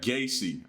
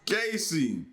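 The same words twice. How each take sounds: First: The name is said flatly, without excitement. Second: The name is said with excitement.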